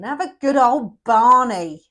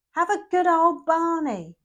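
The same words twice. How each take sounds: First: Louder, slow, egging them on to a row; a cheeky shout of encouragement; rally the viewer into a good old Barney; rousing call to argue. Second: Higher, slow, punchier take on it; a higher, more insistent good old Barney; repeated louder rally. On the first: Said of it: "urging the couple to argue". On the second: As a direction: say it again, pitched up. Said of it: "repeating it, higher". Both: Acted.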